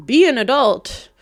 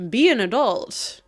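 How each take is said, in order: First: Sharp scolding, much louder. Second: Said in the usual way. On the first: Acted. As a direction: tell them off, loud and firm. Repeats scolding, louder second time.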